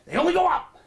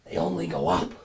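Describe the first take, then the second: First: They only go up shrieked very high and loud. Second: They only go up dropped low and flat; low deadpan. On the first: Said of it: "repeated line, high then low". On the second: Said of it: "repeated line, low take". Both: Acted.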